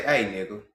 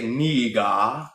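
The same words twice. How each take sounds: First: Relaxed Black American Ebonics greeting; our way of saying it. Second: Put-on "Nigga" said with a clipped African accent, vowels pure. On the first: Shown as a demonstration. Showing his own people's way of greeting, relaxed Ebonics. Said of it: "the way I say". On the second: Mocking how Africans say the word, in an African accent. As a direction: imitate an African speaker saying "Nigga". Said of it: "versus how they say".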